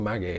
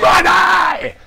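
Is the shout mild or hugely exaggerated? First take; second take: mild; exaggerated. First: It is called out in a mild way. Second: It is shouted with huge exaggerated energy.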